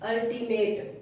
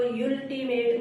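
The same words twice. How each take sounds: First: "अल्टीमेट" starting ul, no y-glide; correct pronunciation. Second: "यूल्टीमेट" opening with a long "yool"; wrong reading "यूल्टीमेट", starting yool instead of ul; mispronunciation demo. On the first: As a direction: say "अल्टीमेट" opening on a short "uh" vowel. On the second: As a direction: misread the first vowel as the letter U in "यूल्टीमेट". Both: Shown as a demonstration. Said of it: "इसको यूल्टीमेट नहीं पढ़ेंगे".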